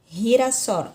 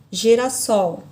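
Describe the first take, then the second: First: The G sounds like a dragged, rasping R. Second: The G sounds as in Portuguese. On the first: "Na língua espanhola eu vou ter girassol" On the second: "Se fosse a palavra na língua portuguesa"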